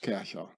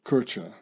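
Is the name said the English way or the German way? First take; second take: German; English. First: The name is said with a German pronunciation. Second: The name is said with an English pronunciation. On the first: The speaker calls it right. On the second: The speaker calls it wrong.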